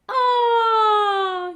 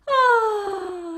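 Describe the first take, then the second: First: The vowel is clean and clear. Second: The vowel is breathy and airy. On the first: The vocal folds meet nice and tight. "you get this very clean sound" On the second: The vocal folds do not close tightly. "you get that very breathy sound"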